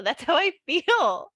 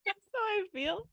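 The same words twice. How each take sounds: First: Slow, high, wobbly snail voice; slow little snail, close to laughing. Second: High, soft little snail voice; tiny high snail, barely holding it. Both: Pretend. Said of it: "Can you do the voice of the snail?".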